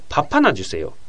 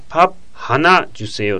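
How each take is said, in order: First: The p links into the next word. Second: The p and the h are said separately. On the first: "ハナとパッのピヨがくっついてパッパナジュセヨ" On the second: "パッハナジュセヨっていう場合は"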